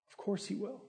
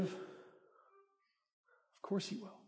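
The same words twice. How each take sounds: First: Said in the usual way. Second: Hushed and drawn out, very soft; soft, slow reassurance. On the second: Acted. Pastor reassuring the congregation, hushed and slow. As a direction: let it fall gently, slowly. Pastor answers own question, softly.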